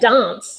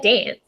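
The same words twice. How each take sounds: First: It is said with a posh British vowel. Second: It is said with an Australian vowel. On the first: This is how the daughter says it. "she sounds like a posh Brit too" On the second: This is how the mother says it. "I say dance"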